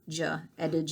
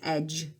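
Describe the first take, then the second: First: The vowel is long, like eege. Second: The vowel is short, as in edge. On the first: The speaker calls it wrong. "you don't say it like that" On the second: The speaker calls it right. "you say edge"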